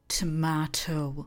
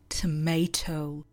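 First: Tomato is pronounced a non-American way. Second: Tomato is pronounced the American way. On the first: "But I say tomato" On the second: "Americans say tomato"

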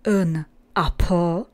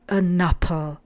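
First: The n is separated from the following vowel. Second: The n runs straight into the following vowel. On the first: The speaker calls it wrong. "nevyslovujeme jako an apple" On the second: The speaker calls it right. "ale an apple"

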